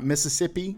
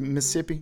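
First: Every syllable is pronounced fully. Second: Some syllables are reduced or dropped. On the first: This is how outsiders say it. The speaker calls it wrong. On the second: This is how locals say it. The speaker calls it right. "You don't work all the way through the syllables"

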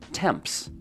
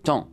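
First: The m, p and s sounds are pronounced. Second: The m, p and s sounds are silent. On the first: The speaker calls it wrong. "you might think the word is pronounced temps" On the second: The speaker calls it right. "all those letters are silent. It's just ton"

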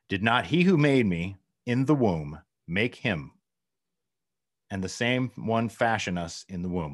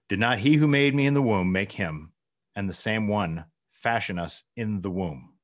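First: It is read haltingly, less fluently. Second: It is read smoothly and fluently.

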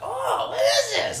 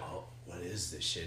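First: It sounds playful and childlike. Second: It sounds serious and stern.

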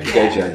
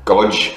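First: The name is said with two syllables. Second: The name is said as one syllable. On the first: This is how the name is actually said. The speaker calls it right. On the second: This is a guess from reading the spelling. The speaker calls it wrong.

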